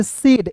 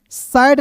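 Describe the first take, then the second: First: सेड with a plain e sound; said with e vowel. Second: सैड with an open vowel, not the short e; wrong vowel in said. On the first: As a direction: pronounce said as सेड, one syllable with an e. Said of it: "इसे पढ़ेंगे". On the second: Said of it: "नहीं पढ़ेंगे दोस्तों". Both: Shown as a demonstration.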